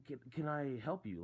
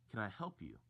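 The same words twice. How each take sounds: First: Higher, mildly pointed question; retold not-so-nice offer of help. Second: Retold question, not rude. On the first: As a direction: ask it with a touch of rudeness, pitched up. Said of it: "Like, in a not nice way". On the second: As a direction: ask it evenly, without rudeness. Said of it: "Not in a rude way".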